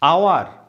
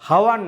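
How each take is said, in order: First: The word begins with a vowel, no h. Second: The word begins with an audible h sound. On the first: The speaker calls it right. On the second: The speaker calls it wrong. "হাওয়ার নয়"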